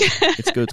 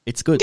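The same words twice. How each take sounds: First: Mock squeal of approval; squeaky high praise. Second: Said in the usual way. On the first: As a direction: jump way up high on it.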